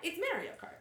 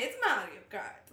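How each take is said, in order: First: The name is said in a plain accent. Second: The name is said in a put-on accent. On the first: Simply naming the game. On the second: Imitating the character himself.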